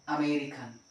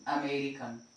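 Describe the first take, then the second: The two takes are said the same way.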